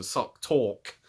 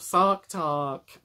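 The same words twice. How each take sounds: First: "Sock Talk" with short rounded "o" and clipped "al", no Brooklyn sound; own English version. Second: "Sark Tark" drawn out slowly, with open "ar" vowels in both words; Sark Tark as they say. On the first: Shown as a demonstration. Admitting she can't do the Brooklyn accent, plain British "Sock Talk". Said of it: "something more akin to Sock Talk". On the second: Retold or imitated. Naming the podcast the way its hosts say it, slow drawn-out "Sark Tark". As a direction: say "Sark Tark" the way the makers do, slowly and a bit higher. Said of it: "as they say".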